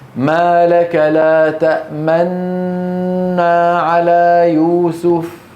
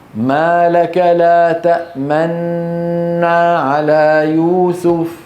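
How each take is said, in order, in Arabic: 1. صوت نون واحد طويل مع استدارة الشفتين. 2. صوت نون واحد طويل مع استدارة الشفتين.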